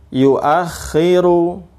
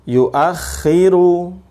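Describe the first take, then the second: Both takes have the same delivery.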